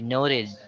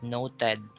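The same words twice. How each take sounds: First: The last syllable has an 'ih' vowel. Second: The last syllable has an 'eh' vowel. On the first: The speaker calls it right. "the sound should be id" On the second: The speaker calls it wrong. "most of us would pronounce that as eh"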